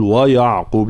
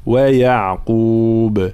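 First: ويعقوب with a heavy ي; wrong ya. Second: Slow ويعقوب with a thin ي. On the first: Teacher shows the wrong ويعقوب. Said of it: "لا نقول ويعقوب". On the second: Teacher models the correct ويعقوب. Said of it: "هكذا ترقيق الياء خاصة". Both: Shown as a demonstration.

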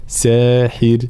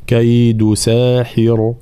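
First: ساحر with a thin raa at the stop; ساحر براء مرققة; correct ساحر. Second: ساحر with a heavy raa; the mistaken heavy raa in ساحر; ساحر براء مفخمة خطأ; wrong ساحر. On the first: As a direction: end ساحر on a light raa. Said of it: "لا، ساحر، هكذا". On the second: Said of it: "فلا نقول". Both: Shown as a demonstration.

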